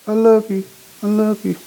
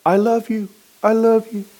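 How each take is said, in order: Both takes have the same delivery.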